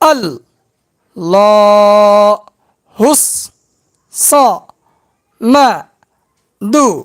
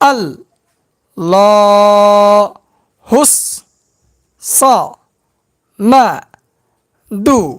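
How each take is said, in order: The two takes are said the same way.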